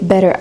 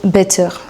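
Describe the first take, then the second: First: It is said with an American accent. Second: It is said with a French accent. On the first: The speaker calls it right. "si on reste dans le contexte américain, et cetera, bah, c'est better" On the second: The speaker calls it wrong. "vous le dites en mode better. Mais du coup, ça, ça sonne français"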